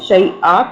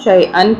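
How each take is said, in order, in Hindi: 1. शब्द लंबी 'a' स्वर पर खत्म होता है। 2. शब्द 'an' की ध्वनि पर खत्म होता है। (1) "अगर रुकेंगे तो" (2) "नहीं रुकेंगे तो"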